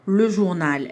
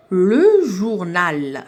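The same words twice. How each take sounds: First: Said in the usual way. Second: Drawn out, very slow, each syllable joined; slow syllable blending. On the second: Shown as a demonstration. Teacher showing pupils how syllables link, very slow. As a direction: stretch it slowly so pupils hear the syllables join. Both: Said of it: "ربطت بيناتهم".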